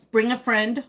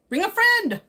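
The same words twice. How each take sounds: First: Said in the usual way. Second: FRIEND pitched way up, then falling; high singsong call. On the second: Pretend. Streamer urging Jorge to bring someone along, high singsong call.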